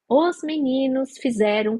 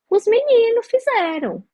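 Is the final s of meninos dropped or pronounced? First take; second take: pronounced; dropped. First: The final s of meninos is pronounced carefully. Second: The final s of meninos is dropped. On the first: The speaker is monitoring their speech on camera. "me monitorava mais, tinha a câmera na minha frente" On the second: This is relaxed everyday speech. "No dia a dia"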